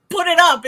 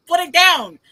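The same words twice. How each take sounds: First: Loud, high stress on "put it up"; emphatic correction. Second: Loud, high stress on "put it down"; emphatic correction. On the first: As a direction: hit "put it up" hard as the wrong phrase. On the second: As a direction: hit "put it down" hard as the right phrase. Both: Shown as a demonstration. Aggravated contrast of two phrases.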